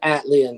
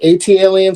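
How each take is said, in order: First: The start is blended into one smooth word. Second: The start is spelled out as letters A-T. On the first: "it's just easier to say Atlians" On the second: "I like A T L, AT aliens"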